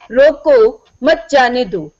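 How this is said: There is a pause right after 'roko'.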